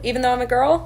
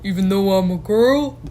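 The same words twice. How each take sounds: First: The voice is pitched noticeably high. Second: The voice is pitched low, like a man's. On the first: The speaker calls it wrong. "said that in a too high pitched of a voice" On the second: The speaker calls it right. "you did the voice like a boy"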